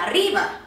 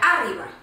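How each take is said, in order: First: The stress is on the second syllable. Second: The stress is on the first syllable. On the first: "Si la síl·laba tònica fos la segona, ri, seria arriba" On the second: "Si fos la síl·laba tònica, la A, seria arriba"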